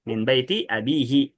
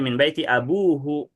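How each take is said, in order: First: The last word has i vowels: abihi. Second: The last word has u vowels: abuhu. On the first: It follows the formal grammar. The speaker calls it right. "Harusnya kan min baiti abihi" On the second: It follows everyday speech. The speaker calls it wrong. "tetap aja min baiti abuhu gitu. Tetap aja dibacanya dengan dengan dhammah"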